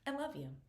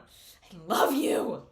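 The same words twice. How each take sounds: First: It is said calmly and quietly. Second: It is said loudly and intensely.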